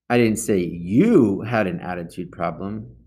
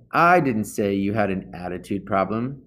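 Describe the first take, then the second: First: "you" pressed hard, the rest of the line light; stress on YOU. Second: The opening "I" carries the weight of the sentence; stress on I. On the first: Reader demonstrating emphasis to teen listeners, stress on YOU. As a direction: push the word "you" to shift the meaning. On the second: Reader demonstrating emphasis to teen listeners, stress on I. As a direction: lean on "I", let the rest fall away. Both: Shown as a demonstration. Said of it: "just by emphasizing a different word".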